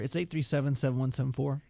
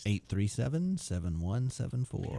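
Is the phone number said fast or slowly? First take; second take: fast; slowly. First: The number is said quickly. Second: The number is said slowly.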